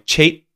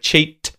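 First: The final T is held without release. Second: The final T is clearly released. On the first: "It's not releasing. It's not going T" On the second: "Instead of cheat"

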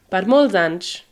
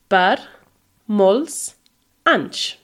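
First: The words flow together without pauses between. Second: Each word is said separately with pauses between. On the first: "So altogether it kind of flows" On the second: "is three words"

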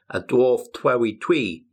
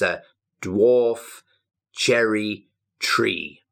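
First: The r sounds come out as w sounds. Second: The r sounds are said as clear r sounds. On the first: The speaker calls it wrong. "You have to be really careful because sometimes you say" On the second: The speaker calls it right. "No, it's"

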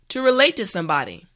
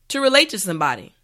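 The two takes are said the same way.

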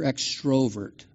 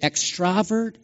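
First: The second syllable has an 'o' vowel. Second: The second syllable has an 'a' vowel. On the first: "How many vote O?" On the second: "How many vote A?"

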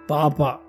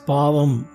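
First: The word is said as papa. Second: The word is said as pavam. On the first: "There is a term called papa" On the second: "In Tamil Nadu, they call it as pavam"

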